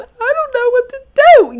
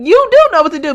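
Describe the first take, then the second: First: Very high, louder playing-dumb voice; mock helplessness. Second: "do" punched in a high, loud, quick retort; stress on DO. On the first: Mocking the mother as playing dumb, mock helpless. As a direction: imitate a woman playing clueless. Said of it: "they just be playing stu". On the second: Acted. Rebutting the mother's helpless act, stress on "do". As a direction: contradict her, hitting "do" hard.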